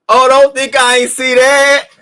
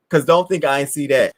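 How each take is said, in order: First: High, loud, slow knowing tease; loud slowed-down gotcha; teasing emphasis. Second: Said in the usual way. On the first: Real, not acted. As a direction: draw it out high like you caught them. Repeats line for emphasis.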